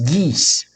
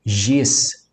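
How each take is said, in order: First: It starts with a hard g sound. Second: It starts with a soft g sound. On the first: The speaker calls it right. "o gama ele não tem o som de G, de gelo, mas sim de G" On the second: The speaker calls it wrong. "a palavra terra não é Gs"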